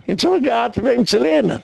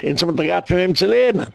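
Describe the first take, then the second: First: High-pitched emphatic repeat; exclaiming. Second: Said in the usual way. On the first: Real, not acted. Preacher driving home whom they learned from, exclaiming. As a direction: drive it home in a raised pitch.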